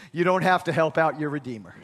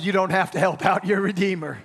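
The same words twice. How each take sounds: First: Said in the usual way. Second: "You don't have to help out your Redeemer" pressed harder for the crowd; emphatic repeat. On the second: Shown as a demonstration. Preacher repeating to congregation, more emphatic. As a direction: push it again for a response. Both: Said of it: "I said".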